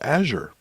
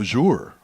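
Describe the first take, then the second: First: Azure is said with a plain English pronunciation. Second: Azure is said with a foreign-sounding pronunciation. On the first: The speaker calls it right. "Do you speak English? It's Azure" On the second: The speaker calls it wrong. "people say Azure like it's a, a foreign word"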